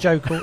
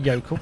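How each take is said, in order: First: The name begins with a hard J sound. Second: The name begins with a Y sound. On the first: The speaker calls it wrong. "Not Jokel" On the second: The speaker calls it right. "It's a Scandinavian J"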